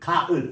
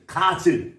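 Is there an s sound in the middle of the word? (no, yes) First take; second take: no; yes. First: No consonant is pronounced in the middle. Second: An s sound is pronounced in the middle. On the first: The speaker calls it right. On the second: The speaker calls it wrong.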